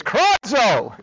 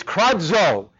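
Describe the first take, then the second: First: Higher, exclaimed KRADZO; onomatopoetic cry. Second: Said in the usual way. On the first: Shown as a demonstration. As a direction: cry out the word like its meaning. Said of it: "It sounds like what it is".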